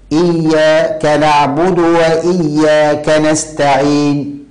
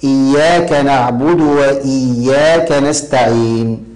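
First: Slow recitation breaking إياك into "iyyaa... ka"; "iyyaa / kanaʕbudu", a gap splitting إياك; iyya split from kaf. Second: Slow chant with إياك as one unbroken word; connected, drawn-out "iyyaaka naʕbudu" for إياك نعبد; iyya joined to kaf. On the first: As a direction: pause inside إياك, joining ka to نعبد. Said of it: "فصل إيا عن الكاف". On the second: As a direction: keep ka attached to إياك, no gap inside. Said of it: "هكذا". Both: Shown as a demonstration.

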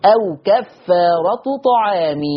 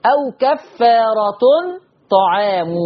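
First: Slow كفارة ending -tu, طعام ending -mi; no tanween on كفارة, kasra on طعام; Warsh reading. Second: كفارة ending in -tun, طعام in -mu; slow كفارة with tanween, u on the mim of طعام; Hafs reading. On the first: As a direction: recite أو كفارة طعام as "aw kaffaaratu ta'aami". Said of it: "مضمومة بس من غير تنوين". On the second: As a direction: say أو كفارة طعام as "aw kaffaaratun ta'aamu". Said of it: "تاء منونة بالضم". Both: Shown as a demonstration.

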